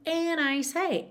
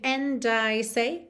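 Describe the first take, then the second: First: The D at the end of 'and' is dropped. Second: The D at the end of 'and' is pronounced. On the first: "ele tirou mesmo o D" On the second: "que seria mais tipicamente britânico"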